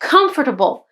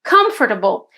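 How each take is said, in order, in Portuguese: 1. A tônica cai na primeira sílaba. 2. A tônica cai na primeira sílaba.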